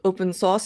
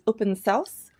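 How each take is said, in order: First: The name is said in the ordinary, standard way. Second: The name is said in an unusual, non-standard way.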